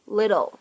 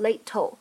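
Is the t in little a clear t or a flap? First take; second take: flap; clear t. First: The t is pronounced as a quick flap. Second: The t is pronounced as a full, clear t. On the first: The speaker calls it right. "而会读成一个闪音的处理" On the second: The speaker calls it wrong. "在美式发音当中，它不读成little"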